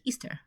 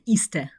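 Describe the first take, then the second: First: It is said in a soft, relaxed way. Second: It is said in a hard, tense way. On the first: The speaker calls it right. "Ніжніше, лінивіше" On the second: The speaker calls it wrong. "не Easter"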